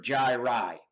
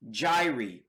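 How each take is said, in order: First: "gyri" ending in an EYE sound; gyri as JAI-rye. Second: "gyri" ending in a long EE sound; gyri as JAI-ree. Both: Shown as a demonstration. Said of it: "However you wanna pronounce it".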